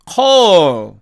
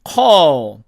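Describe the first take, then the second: First: The final L is pronounced clearly and fully. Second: The final L is barely pronounced. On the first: "사전식 발음으로" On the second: "원어민들이 이렇게"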